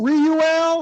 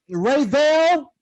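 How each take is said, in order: First: The name is said without a V sound. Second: The name is said with a V sound.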